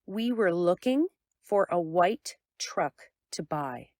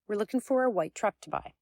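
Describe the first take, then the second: First: It is said slowly with pauses and stressed keywords. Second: It is said at a quick, casual conversational pace. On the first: "In clear speech style, it sounds like this" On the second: "In a normal conversation, the second sentence sounds like this"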